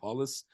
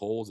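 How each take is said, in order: First: The name is said with a Brazilian pronunciation. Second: The name is said with an English pronunciation. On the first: The speaker calls it right. "Brazilians corrected me so much over the years ... say Hollis" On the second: The speaker calls it wrong. "not to say Hollis"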